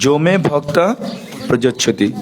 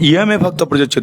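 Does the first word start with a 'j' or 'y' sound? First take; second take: j; y. First: The first word begins with a 'j' sound. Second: The first word begins with a 'y' sound. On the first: "কিন্তু যদি না পারি" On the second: "এখানে উচ্চারণটা হবে"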